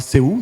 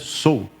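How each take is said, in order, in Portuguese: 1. O nome é pronunciado do jeito do português brasileiro. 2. O nome é pronunciado do jeito coreano. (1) "A gente fala Seul" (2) "mas é Seoul que fala, em coreano"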